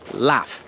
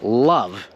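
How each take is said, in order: First: The word ends with a voiceless F sound. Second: The word ends with a voiced V sound. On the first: The speaker calls it wrong. "pronouncing the V like an F" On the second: The speaker calls it right. "we're pronouncing the V"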